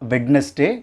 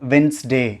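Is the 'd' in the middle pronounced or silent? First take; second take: pronounced; silent. First: The middle 'd' sound is pronounced. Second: The middle 'd' sound is left out. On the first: The speaker calls it wrong. "Not வெட்னஸ்டே" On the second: The speaker calls it right. "It's வென்ஸ்டே"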